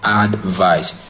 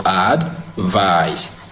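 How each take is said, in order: First: "advice" said as AD-vice, first syllable stressed; the noun "advice", stressed AD-vice. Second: "advice" said slowly as ad-VICE, second syllable stressed; the verb "advice", slow, stressed ad-VICE. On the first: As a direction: hit the "ad" in "advice", then let vice fall away. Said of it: "the stress is on the first syllable, which is ad". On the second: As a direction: lean on the "vice" in "advice", drawn out. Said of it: "stressed in the second syllable, which is the vice". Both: Shown as a demonstration.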